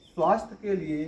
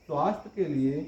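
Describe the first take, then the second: No difference in how they are said.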